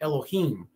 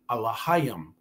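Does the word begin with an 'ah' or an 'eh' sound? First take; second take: eh; ah. First: It begins with 'eh' and sounds like Elohim. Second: It begins with 'ah' and sounds like Allahayim. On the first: It is read the English way. "In English, you'll pronounce it Elohim" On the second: It is read the ancient Hebrew way. "in ancient Hebrew, it's Allahayam"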